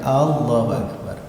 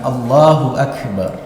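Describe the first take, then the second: First: The first A vowel is drawn out long. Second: The first A vowel is short. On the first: It asks whether God is great. The speaker calls it wrong. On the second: God is the Greatest. The speaker calls it right.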